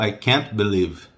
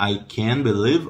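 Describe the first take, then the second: First: "can't" choked off at the end; "can't" with closed, swallowed T; choked final T. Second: "can" held open, no T; long open vowel in "can". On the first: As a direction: stop "can't" short on the T. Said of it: "dá aquela enforcada no final". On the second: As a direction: let "can" ring open into believe. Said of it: "o can é bem aberto". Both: Shown as a demonstration.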